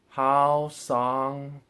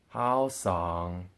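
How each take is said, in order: First: Both syllables carry the first tone. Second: The second syllable carries the third tone. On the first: "both of them as the first tone" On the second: "and so on and so forth"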